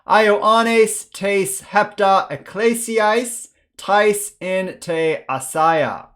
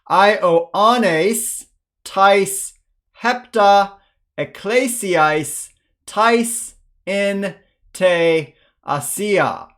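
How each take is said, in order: First: It is read faster, as one flowing phrase. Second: It is read slowly, word by word.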